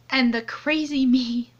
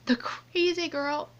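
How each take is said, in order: First: Said in the usual way. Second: Whispered correction. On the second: Real, not acted.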